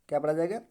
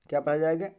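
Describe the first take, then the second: Both takes have the same delivery.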